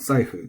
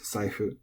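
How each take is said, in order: First: The word has an accented pitch drop. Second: The word is said with flat pitch. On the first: The speaker calls it wrong. "It's not saifu" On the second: The speaker calls it right. "Saifu is flat"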